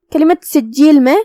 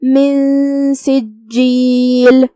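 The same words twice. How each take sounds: First: Said in the usual way. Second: من سجیل very slowly, the ن hidden and hummed into س; من سجیل with a concealed, nasal noon. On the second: Shown as a demonstration. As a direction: hum the ن of من into سجیل. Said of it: "نون کو بغیر ظاہر کیے ہوئے لیکن غنہ کے ساتھ".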